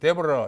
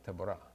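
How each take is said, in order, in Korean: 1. "Deborah" 이름은 미국식으로 발음했습니다. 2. "Deborah" 이름은 히브리식으로 발음했습니다. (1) "미국에서는 데보라 이렇게 발음하죠" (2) "히브리 말로는 드보라입니다"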